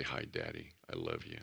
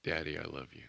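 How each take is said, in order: First: Lower, soft and loving; tender hi Daddy. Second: Tender prayer. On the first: Preacher showing how to greet God, low and soft. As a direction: say it softly like a child to his father. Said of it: "Let's make sure we say". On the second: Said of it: "opening prayer to God". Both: Shown as a demonstration.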